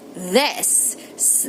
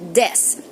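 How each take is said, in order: First: It begins with a soft th sound. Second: It begins with a hard d sound. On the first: "instead of saying this" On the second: "they say this"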